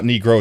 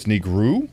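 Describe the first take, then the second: First: "negro" ending in an oh sound; English-style final vowel. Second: "negru" ending in oo, as a question; corrected final vowel. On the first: Streamer checking a Spanish color word with chat, oh ending. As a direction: end "negro" on a full oh. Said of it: "it's not negro". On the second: Streamer trying out chat's Spanish correction, questioning oo ending. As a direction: tentatively end "negru" on a rising oo. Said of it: "it's negru? Like that?". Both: Shown as a demonstration.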